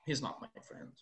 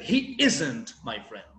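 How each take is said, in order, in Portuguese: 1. A palavra not recebe pouca ênfase. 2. A palavra isn't é fortemente enfatizada. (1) "Eu não dei tanta ênfase" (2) "enfatizei o isn't"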